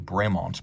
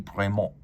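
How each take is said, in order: First: The name is pronounced with an English sound. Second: The name is pronounced with a French sound. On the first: This is the official form used by the brand. "that is the anglicized pronunciation and the official one" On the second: This follows the original French name. "technically it would be"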